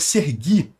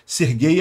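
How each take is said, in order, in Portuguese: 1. O nome é dito na sua forma ucraniana. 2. O nome é dito na sua forma russa. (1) "é a versão ucraniana do nome Sergei" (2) "Sergei é a pronúncia russa"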